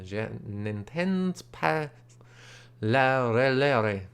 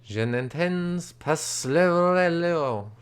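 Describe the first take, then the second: First: Je n'entends pas said slowly and softer, in French; quietly retry Je n'entends pas la relere in French; French phrase retry. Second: Je n'entends pas said slowly in French; French phrase. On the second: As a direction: carefully sound out Je n'entends pas le relevo in French. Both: Shown as a demonstration.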